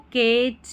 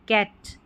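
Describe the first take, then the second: First: The vowel is a long 'ay' sound. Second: The vowel is a short open 'a' sound. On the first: The speaker calls it wrong. "ए का हम long sound नहीं pronounce कर रहे हैं" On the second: The speaker calls it right. "ये short sound इसका निकल कर आ रहा है"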